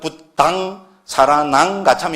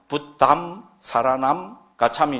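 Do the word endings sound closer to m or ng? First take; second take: ng; m. First: The word endings sound like ng. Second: The word endings sound like m. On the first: It is the form Buddhist tradition treats as standard. "이응에 가깝게 발음한 거를 정설로 합니다" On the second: It is the regional usage in western India. "미음의 M에 가깝게 합니다"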